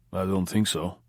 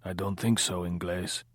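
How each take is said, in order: First: Quiet guttural Russian accent, lightly voiced; a hint of Akim Tamirov's Russian accent, quiet and guttural; Russian gangster denying it in a quiet guttural Russian accent. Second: A mild, lightly voiced low drunken grumble; just a hint of a wine-soaked grumble; drunk Pablo. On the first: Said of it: "Chili heard Akim Tamirov, that kind of accent, the tone quiet, guttural". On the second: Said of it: "his voice a low, grumbling sound, wine-soaked, Pablo drunk". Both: A narrator's reading.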